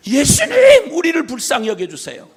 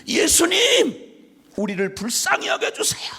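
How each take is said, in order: First: Name cried out high and loud; a loud, high cry for mercy. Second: Breathy pleading whisper, slow on the name; a whispered cry for mercy; whispered plea. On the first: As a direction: call out desperately to Jesus. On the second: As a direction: beg in a hushed whisper. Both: Retold or imitated. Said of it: "열 문둥병자가 외쳤던 말처럼".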